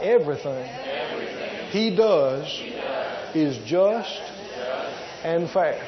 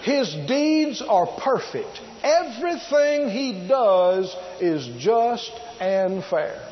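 First: "Everything", "He does", "is just", "and fair" each set apart by pauses; spaced out like a congregation repeating; phrase by phrase. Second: Each word weighed slowly; a preacher laying out the verse; slow emphatic reading. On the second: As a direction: read it out slowly, stressing every word. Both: Shown as a demonstration. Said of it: "Why don't you say that out loud?".

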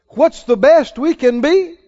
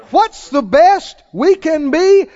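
First: Said in the usual way. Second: Emphatic repeat. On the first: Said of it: "What's the best we can do?". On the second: Shown as a demonstration. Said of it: "Is it true or not?".

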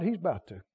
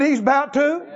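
First: Trailing off quietly under the breath; soft aside. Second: Repeated louder and firmer; emphatic repeat. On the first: Preacher murmuring the promise to the congregation, softly. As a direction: drop it low and soft, half to himself. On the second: Preacher repeating the promise to the congregation, emphatically. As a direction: say it again and make them hear it. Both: Real, not acted. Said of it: "I said he's about to".

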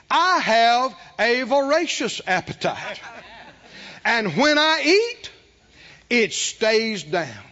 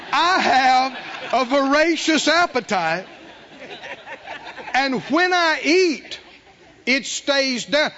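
First: Slow, deliberate, each word weighted; slow emphatic confession. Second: Slow, raised, every word pressed; slow emphatic confession. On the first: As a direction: dictate it word by word. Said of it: "Here's what you say". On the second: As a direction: say it firmly and slowly. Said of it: "Say it with me out loud right now". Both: Shown as a demonstration.

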